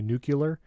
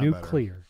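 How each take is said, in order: First: The word is not said like 'new clear'. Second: The word is said like 'new clear'. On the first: The speaker calls it wrong. "I have the tendency to say nuclear, and then everybody yells at me" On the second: The speaker calls it right. "I try to pronounce it like new clear"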